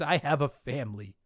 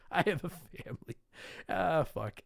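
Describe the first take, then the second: First: Said in the usual way. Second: Soft, giggling mock repeat; laughing repeat. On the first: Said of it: "Ted Viper wrote in and said". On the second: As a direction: quote it back through laughter.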